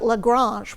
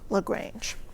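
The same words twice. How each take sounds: First: The name is said with a French pronunciation. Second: The name is said with an American pronunciation. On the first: This is the original name of his French home. "was how it was pronounced in France" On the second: This is how the renamed American town says it. "but pronounced it LaGrange"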